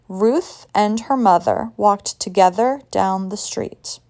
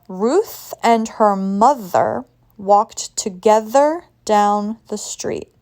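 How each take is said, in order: First: The sentence is said at normal speed. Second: The sentence is said slowly and carefully.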